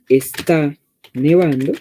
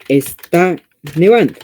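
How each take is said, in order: First: It is said in a plain, calm voice. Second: It is said louder, with a raised exclaiming voice.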